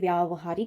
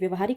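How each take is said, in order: First: The first vowel is a long 'aa'. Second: The first vowel is a short 'a'. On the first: The speaker calls it right. "आ लगेगा" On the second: The speaker calls it wrong. "न होके"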